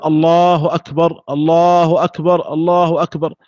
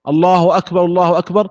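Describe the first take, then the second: First: Slow, drawn-out الله, each أكبر closed on a still r; stop after each phrase. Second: Both الله أكبر linked without a break between them; joined in one breath. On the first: Teacher showing the muezzin's other option, separate takbirs. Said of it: "أو أن يقف على كل جملة". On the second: Teacher demonstrating paired takbirs, joined in one breath. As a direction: carry the first أكبر straight into the second الله. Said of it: "القرن بين التكبيرتين بنفس واحد". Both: Shown as a demonstration.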